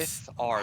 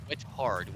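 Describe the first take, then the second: First: The middle has no h sound. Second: The middle has a clear h sound. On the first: The speaker calls it right. "It's with with ard" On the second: The speaker calls it wrong. "I was saying with hard"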